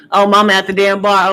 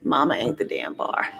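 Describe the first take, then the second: First: Louder second take with a laugh in it; reading a viewer's comment again louder and amused; louder corrected reread. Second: Said in the usual way. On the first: Real, not acted.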